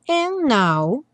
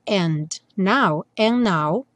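First: The D in 'and' is dropped. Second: The D in 'and' is clearly pronounced. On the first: "que é bastante comum no and now, tirar o D" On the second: "ao invés de falar and now"

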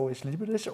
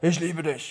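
First: It is said in an affectionate tone. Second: It is said in an angry tone.

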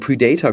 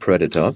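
First: The stress falls on a later syllable. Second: The stress falls on the first syllable. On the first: The speaker calls it wrong. "wir haben immer Predator gesagt" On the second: The speaker calls it right. "statt Predator"

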